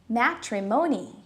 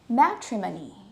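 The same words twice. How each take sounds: First: The o is a full vowel, American style. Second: The o is reduced to schwa, British style. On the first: "if you're using an American accent" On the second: "the O would change into a schwa sound"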